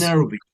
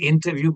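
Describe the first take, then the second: First: The T after the N is dropped. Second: The T after the N is clearly pronounced. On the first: The speaker calls it right. "but it becomes interview" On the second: The speaker calls it wrong. "in India we say interview"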